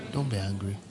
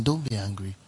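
First: Softer reminder. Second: Soft reminder. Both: Shown as a demonstration. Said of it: "tell the person".

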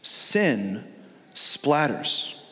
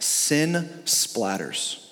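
First: "Sin", pause, then "splatters" said low and apart; repeated with a pause. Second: "sin splatters" slow and falling; emphatic. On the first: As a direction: split "Sin" from "splatters" with a beat. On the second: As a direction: lean hard on "sin splatters". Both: Shown as a demonstration.

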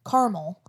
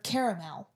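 First: "caramel" in two syllables, CAR-mul; variant pronunciation. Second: "caramel" in three syllables, CARE-uh-mel; variant pronunciation. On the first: Host comparing word variants, saying "caramel" as CAR-mul. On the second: Host comparing word variants, saying "caramel" as CARE-uh-mel. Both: Shown as a demonstration. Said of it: "with some words, like, if you say".

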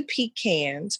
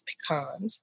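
First: "pecans" said pee-KANS; "pecans" with a flat a on the second syllable, pee-KANS; pecan pronunciation. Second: "pecans," said puh-KAHNS; "pecans," with a broad ah, puh-KAHNS, dropped much softer; "pecans," as puh-KAHNS, quietly; other pecan pronunciation. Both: Shown as a demonstration. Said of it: "Or pecan".

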